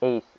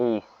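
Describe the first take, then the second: No difference in how they are said.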